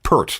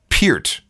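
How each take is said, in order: First: The name sounds like the shampoo 'Pert'. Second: The name sounds different from the shampoo 'Pert'. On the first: The speaker calls it wrong. "not Pert, like the shampoo" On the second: The speaker calls it right. "It is, in fact"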